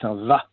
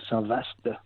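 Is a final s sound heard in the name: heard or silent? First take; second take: silent; heard. First: The name ends on a vowel, no s sound. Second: The name ends with an audible s sound. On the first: The speaker calls it right. "mais Saint-Va" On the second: The speaker calls it wrong. "on ne dit pas Saint-Vaast"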